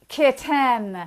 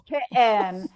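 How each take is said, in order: First: The middle T is fully and crisply released. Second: The middle T is a glottal stop. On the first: "a hypercorrect version of this" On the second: "the glottalization of T"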